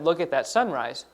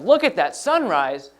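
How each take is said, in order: First: It is said in a calm, even voice. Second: It is said with strong, excited energy. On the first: It is a plain statement. "we would just put a period at the end" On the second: It is said with strong emotion. "then we would put an exclamation point"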